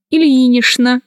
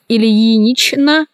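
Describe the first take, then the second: First: Ильинична said as ильинишна; CHN as SHN. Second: Ильинична cut as ильинич-на; spelling pronunciation. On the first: Teacher showing how ильинична is pronounced, SH sound. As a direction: use Ш for Ч in ильинична. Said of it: "произносится". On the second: Teacher showing how ильинична is written, spelled-out reading. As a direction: keep a clear Ч in ильинична. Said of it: "Пишется". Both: Shown as a demonstration.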